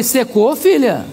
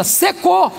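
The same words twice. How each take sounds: First: Mild questioning echo, near usual pitch. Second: High, mock-exasperated single word; retold angry final verdict, pitched up; cross. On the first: Retold or imitated. Pastor checking the angry woman's word, questioning. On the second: Angry woman repeating it to a slow pastor, cross. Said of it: "olhou brava para mim".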